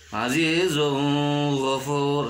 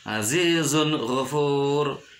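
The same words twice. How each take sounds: First: The n sound is blurred, not distinct. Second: The n sound is pronounced distinctly. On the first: The speaker calls it wrong. "tidak boleh dibaca" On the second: The speaker calls it right. "harus jelas"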